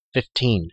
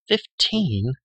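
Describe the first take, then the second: First: Said in the usual way. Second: A higher, stunned echo with a falling end; shocked question. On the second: A narrator's reading. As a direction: echo the number in disbelief.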